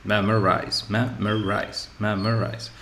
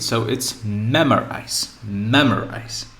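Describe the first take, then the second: First: Memorize with the first syllable leaned on; stress on MEM. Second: Memorize said slowly, first syllable stressed; memorize, first syllable leaned on; stress on MEM. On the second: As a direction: model ME-mo-rize deliberately. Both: Shown as a demonstration. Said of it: "So this is the stress I need".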